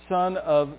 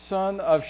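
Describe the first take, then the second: The two takes are said the same way.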